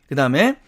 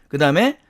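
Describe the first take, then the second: Both takes have the same delivery.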